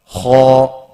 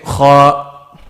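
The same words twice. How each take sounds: First: The letter sounds heavy and full. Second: The letter sounds light and thin. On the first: The speaker calls it right. "I made it heavy" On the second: The speaker calls it wrong. "He's going left and right, isn't it? So he's making his letter what? Light"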